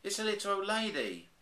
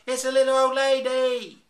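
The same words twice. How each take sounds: First: High, startled exclaim; shocked at the discovery; surprised. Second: Much higher, much louder shriek; screamed. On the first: A narrator's reading. Bears cry out. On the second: Acted. The bears seeing the old lady, screaming in terror. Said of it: "This is what really happened".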